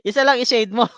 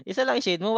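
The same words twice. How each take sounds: First: "Isa lang i-shade mo" said louder and higher, pressing on "lang"; teacher stressing "lang" so students shade one; firm reminder. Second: Said in the usual way. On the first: Shown as a demonstration. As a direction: insist "lang", only one answer.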